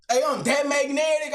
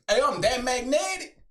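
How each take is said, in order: First: Hyping himself up to ChatGPT with a shouted brag. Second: Said in the usual way. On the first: Retold or imitated. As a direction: belt it out like a show-off. Texting ChatGPT, bragging.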